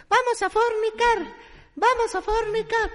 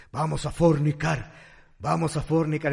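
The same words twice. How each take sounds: First: Chanted, very high, slow kitten voice; chanted, sing-song it like a tiny kitten; high squeaky kitten chant; baby kitten chant. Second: Chanted, drone it like a pack of tomcats. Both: Acted.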